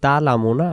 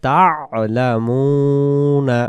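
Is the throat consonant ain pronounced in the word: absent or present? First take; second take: absent; present. First: The ain throat sound is left out. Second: The ain throat sound is clearly pronounced. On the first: The speaker calls it wrong. "যদি পড়ে তা'লামুনা, আইন অক্ষর এখানে বাদ যাবে।" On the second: The speaker calls it right. "আইন অক্ষর সহায় করতে হলে বলতে হবে তা'লামুনা।"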